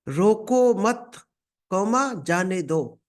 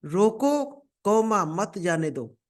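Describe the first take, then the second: First: "रोको मत" then a pause before "जाने दो"; slow "रोको मत", pause, then "जाने दो"; comma pause after मत. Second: "रोको" rising, then a pause before "मत जाने दो"; comma pause after रोको. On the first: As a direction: pause placed after "मत" so it means let him go. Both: Shown as a demonstration. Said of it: "अब comma सिर्फ हटाना है आपको।".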